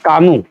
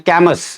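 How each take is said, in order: First: The name ends on a vowel, with no s. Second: The name ends with an audible s sound. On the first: The speaker calls it right. "एस silent होता है" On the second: The speaker calls it wrong. "बहुत सारे बच्चे जिनको ज्ञान नहीं है वो इसको बोल देते हैं"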